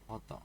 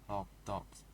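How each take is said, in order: First: The stress falls on the first word. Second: Both words carry equal stress. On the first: A type of sausage snack. "with the stress on the first word" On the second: A dog that is hot. "with an equal stress on both words"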